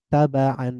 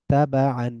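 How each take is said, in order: Both takes have the same delivery.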